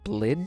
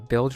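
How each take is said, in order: First: The l sound comes before the vowel. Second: The l sound comes after the vowel. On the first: The speaker calls it wrong. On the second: The speaker calls it right.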